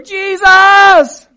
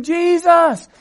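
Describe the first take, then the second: First: Full-out high, drawn scream; yelling all the louder. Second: High, loud beggar's cry; screaming. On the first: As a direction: scream it at the top of your lungs. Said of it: "they yelled all the louder". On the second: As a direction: cry out over the crowd. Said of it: "these poor beggars are screaming". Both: Acted.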